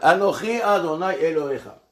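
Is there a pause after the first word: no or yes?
no. The words run on with no pause. "On lit ça à la suite, sans marquer un temps d'arrêt"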